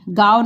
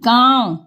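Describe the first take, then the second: First: "गांव" as oral gaao, the mistaken form; wrong reading of "गांव", vowel kept oral; without nasal. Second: "गांव" with a nasal aa; nasalised vowel. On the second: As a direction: correct "गांव" as gãão, through the nose. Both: Shown as a demonstration. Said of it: "गांव नहीं".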